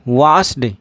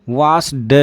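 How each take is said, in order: First: The word ends with a d sound. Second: The word ends with a d sound.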